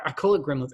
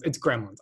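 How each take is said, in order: First: "Gremlins" said as "Grimlins", with a short i sound; "Gremlins" pronounced "Grimlins"; his own pronunciation. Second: "Gremlins" said properly with an e, "Grem-lins"; correcting to the proper "Gremlins"; correct pronunciation. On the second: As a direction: standard "Gremlins", with the e of "red". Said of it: "I know it's Gremlins". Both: Shown as a demonstration.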